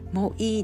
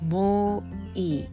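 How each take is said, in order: First: The vowels are short and clipped. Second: The vowels are stretched out long. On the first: The speaker calls it wrong. "もういいではなくて" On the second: The speaker calls it right. "OとIが、少しゆっくりと長く伸ばされている"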